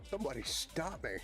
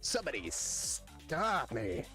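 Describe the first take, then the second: First: It is said in his own ordinary voice. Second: It is said in a put-on comic character voice.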